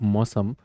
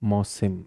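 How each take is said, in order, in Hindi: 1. आखिरी अक्षर में 'a' स्वर है: sam। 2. आखिरी अक्षर में 'i' स्वर है: sim। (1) "मौसम की जगह मौसिम कहना चाहिए मुझे" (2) "मौसिम कहना चाहिए मुझे"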